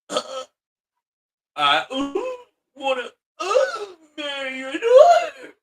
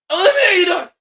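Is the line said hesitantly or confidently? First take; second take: hesitantly; confidently. First: It is said hesitantly, with a breaking voice. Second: It is said confidently, from the chest.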